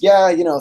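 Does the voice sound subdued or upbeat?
upbeat. The voice is upbeat with high notes. Things are going well. "his body language before was"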